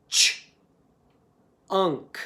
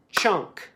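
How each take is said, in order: First: CHUNK split into ch, pause, unk; tapped into sounds. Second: CHUNK said whole, in one short beat; clapped as one syllable. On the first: Teacher tapping out chunk, CH and UNK apart. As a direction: say the ch alone, wait, then unk as one glued sound. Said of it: "tap it into its sounds". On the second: Teacher clapping the syllable, CHUNK in one beat. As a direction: say CHUNK as a single unbroken syllable. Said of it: "first I clap it". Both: Shown as a demonstration.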